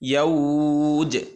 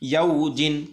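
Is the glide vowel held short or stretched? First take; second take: stretched; short. First: The glide is stretched and the word ends stopped. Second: The glide is said quickly and the word continues. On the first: The reader stops on this word. "থেমে যাই ... একালিফ টান" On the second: The reader carries on without stopping. "যদি না থামি তাহলে ... দ্রুত উচ্চারণ হবে"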